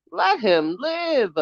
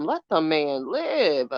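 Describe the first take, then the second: First: Higher, slow, drawn-out let him live; slow exasperated emphasis; emphatic repeat. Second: Said in the usual way. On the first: Real, not acted. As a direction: lean into it as the final word. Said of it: "repeated higher for emphasis". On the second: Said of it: "exasperated plea".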